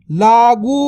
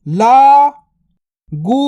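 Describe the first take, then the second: First: Said in the usual way. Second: लागू drawn out very slowly; slow stretched word. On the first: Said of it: "normal take". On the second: Shown as a demonstration. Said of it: "stretched drill take". (लागू को धीरे खींचकर बोलें)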